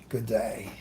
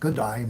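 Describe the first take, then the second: First: It is said in the speaker's ordinary accent. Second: It is said in a put-on foreign accent.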